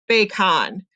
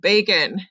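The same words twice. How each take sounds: First: The second syllable has a full 'ah' vowel. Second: The second syllable has a weak 'uh' vowel. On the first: The speaker calls it wrong. "this should be a short vowel O. It should say ah" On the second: The speaker calls it right. "that schwa says it makes that weak, lazy U sound, the uh"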